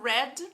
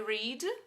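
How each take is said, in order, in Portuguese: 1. A vogal é curta, como em 'red'. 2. A vogal é longa, como em 'reed'. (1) "No passado, red, ... é como se fosse a cor" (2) "aqui no infinitivo é read"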